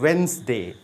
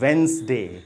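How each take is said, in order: First: The word is said with two short syllables. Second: The same.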